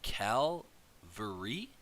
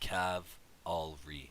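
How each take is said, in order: First: The L sound comes before the V. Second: The L sound comes after the V. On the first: The speaker calls it wrong. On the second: The speaker calls it right.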